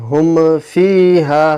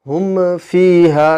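Both takes have the same delivery.

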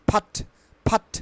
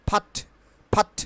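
The two takes are said the same way.

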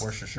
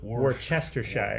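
First: Several written syllables are dropped and squeezed together. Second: Every written syllable is sounded out in full. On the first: This is how the word is actually spoken. The speaker calls it right. "But it's pronounced Worcestershire" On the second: This is how the word looks written down. The speaker calls it wrong. "Because it's spelled Worcestershire"

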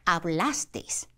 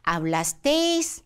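First: The stress falls on the second-to-last syllable. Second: The stress falls away from the second-to-last syllable. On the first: The speaker calls it right. "뒤에서 두 번째가 바로 여기라 아센토를 찍지 않고 여기가 올라가는 게 맞습니다" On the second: The speaker calls it wrong. "hablasteis 하면은 안 됩니다"

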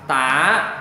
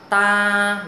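First: The pitch dips down and then rises. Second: The pitch stays level, neither high nor low. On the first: "Thanh 2 là ta đọc giống như tiếng Việt, là dấu hỏi" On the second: "đọc ngang ngang ha. Ta là không lên giọng cũng không xuống thấp"

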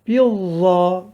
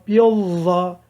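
First: The z sound is lisped, like th. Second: The z sound is lisped, like th.

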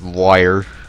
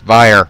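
First: The word begins with a w sound. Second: The word begins with a v sound. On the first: The speaker calls it wrong. "not wire. a lot of people say it wrong" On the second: The speaker calls it right. "It's Vire"

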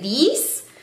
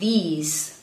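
First: The word ends with an s sound. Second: The word ends with a z sound. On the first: The speaker calls it wrong. "a pesar de que ven una S ahí" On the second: The speaker calls it right. "sino que se dice these"

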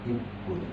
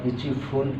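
First: It is said as one merged word, ippun. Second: It is said as two separate words, ichi fun. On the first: The speaker calls it right. "এই দুটাকে একসাথে করে ইপ্পুন বলা হয়" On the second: The speaker calls it wrong. "এইটা বলে না"

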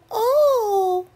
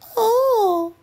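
First: It is a short, high, thin squeak. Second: The same.

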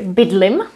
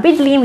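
First: The final i vowel is cut short. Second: The final i vowel is held long. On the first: This is the everyday spoken form. "you might hear bydlim" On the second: This is the standard form. "instead of já bydlím"

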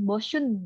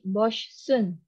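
First: The middle sounds are merged into one. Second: The middle sounds are kept clearly separate. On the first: The speaker calls it wrong. "Jadi nggak boleh langsung boschun gitu" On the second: The speaker calls it right. "Tetap harus dibedain"

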